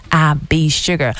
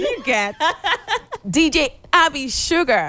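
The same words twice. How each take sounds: First: Low, loud, slow radio DJ intro; DJ announcer voice. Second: Higher, laughing through the name. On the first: Acted. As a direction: announce your name like a radio DJ. DJ introduces herself on air. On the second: Real, not acted. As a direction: giggle while saying the DJ name. Repeats her DJ name laughing.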